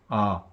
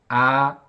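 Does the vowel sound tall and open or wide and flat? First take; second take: tall; wide. First: The vowel is made with the mouth opened vertically. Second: The vowel is made with lips spread sideways. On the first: The speaker calls it right. "위아래로 벌어진다고 생각하시고 입을 벌리셔야 돼요" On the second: The speaker calls it wrong. "이렇게 옆으로 벌어지면 안 되고"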